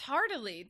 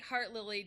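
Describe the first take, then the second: First: It is said as one word, heartily. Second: It is said as heart plus lily. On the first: The speaker calls it right. "that's that's Heartily. There is no L before that" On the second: The speaker calls it wrong. "At first glance, it looks like Heart Lily"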